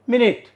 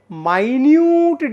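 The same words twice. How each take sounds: First: "Minute" said as MIN-it; short i in both syllables of "Minute"; MIN-it pronunciation. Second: "minute" said as my-NYOOT, drawn out; long "my" then "nyoot" in "minute"; my-NYOOT pronunciation. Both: Shown as a demonstration. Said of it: "the sound is different".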